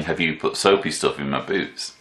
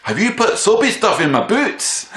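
First: Said in the usual way. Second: Accusing Scottish voice, much higher and louder; hammed-up Scottish accent, pitched high. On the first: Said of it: "just the translation". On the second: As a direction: play the angry Scottish lad confronting him. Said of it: "So here's my Scottish accent".

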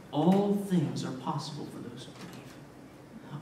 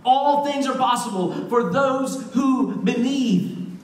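First: Slow, low and soft; hushed assurance. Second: Slow, ringing declaration with raised voice; emphatic proclamation. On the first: Jesus answers the desperate father, hushed assurance. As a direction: say it quietly, letting each word settle. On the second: Preacher repeats Jesus's promise, emphatic proclamation. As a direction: proclaim it with full conviction, drawing out the words. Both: Retold or imitated.

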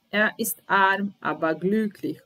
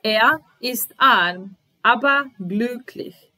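First: Said in the usual way. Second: Slow, louder and higher, every word spaced out; slow model reading. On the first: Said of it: "teacher repeats sentence normally". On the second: Shown as a demonstration. Teacher to learners, first slow louder model reading. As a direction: dictate it slowly so learners can follow. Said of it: "teacher models sentence for learners".

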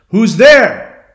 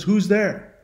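First: High, loud challenge into the woods; loud raised-pitch query; calling out. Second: Higher-pitched echo at modest volume; high unforced echo of a call; Echo repeating. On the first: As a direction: call out to an unseen stranger. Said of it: "he's calling out". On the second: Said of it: "Echo can only repeat what you've said". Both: Retold or imitated.

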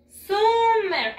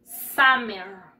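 First: "Summer" said as written, SOO-mer; spelling pronunciation. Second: "summer" said SAH-mer; English pronunciation. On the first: Teacher shows pupils how it is written, "Summer" as SOO-mer. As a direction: sound out "Summer" Spanish-style with an oo, high and loud. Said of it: "Se escribe así". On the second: Teacher shows how it is pronounced in English, "summer" as SAH-mer. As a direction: model "summer" with an open ah, low and loud. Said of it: "Se pronuncia en inglés". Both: Shown as a demonstration.

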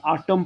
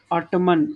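First: ऑटम said as "aa-tum" with no n at the end; correct pronunciation. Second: ऑटमन said with an extra n sound at the end; common mispronunciation. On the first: Teacher to pupils, giving the correct reading ऑटम. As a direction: say ऑटम ending cleanly on m. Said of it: "correct तो ऑटम ही word है ना". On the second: Teacher to pupils, showing the common wrong reading ऑटमन. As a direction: say ऑटमन as "aa-tuh-mun", ending on n. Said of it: "ऑटमन ऐसे पढ़ लेते हो". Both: Shown as a demonstration.

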